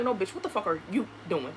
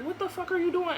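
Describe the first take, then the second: First: Quick, lower comeback; retold defiant retort. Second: High-pitched mock outrage; imitated angry demand. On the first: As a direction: fire his question straight back, pitched down. Her retort turning question on him. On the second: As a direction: play him demanding an explanation. Repeats his demand from the door.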